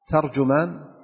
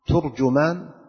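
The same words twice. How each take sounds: First: The first two vowels are a then u. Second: The first two vowels are not a then u. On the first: "وأجود ذلك الأول، ترجمان بالفتح ثم الضم" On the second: "ويجوز أن تقول ترجمان أو ترجمان"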